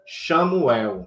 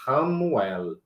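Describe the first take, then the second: First: The name begins with an sh-like sound. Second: The name begins with a guttural R sound. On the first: The speaker calls it wrong. "a pessoa fala Samuel, aí fica parecido com Samuel, e não tem nada a ver" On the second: The speaker calls it right. "O C H tem som de R"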